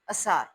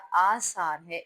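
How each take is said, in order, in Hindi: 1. पहला स्वर छोटा है। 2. पहला स्वर लंबा है। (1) "अगर हम इसका मद्दा हटा देंगे तो ये लफ़्ज़ क्या बनेगा?" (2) "असार तब नहीं बोला जाएगा"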